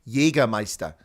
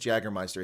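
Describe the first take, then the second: First: The word is pronounced in a German way. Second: The word is pronounced in an anglicized way. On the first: The speaker calls it right. "I'm going to fix your German pronunciation" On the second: The speaker calls it wrong. "There's no such thing as Jagermeister"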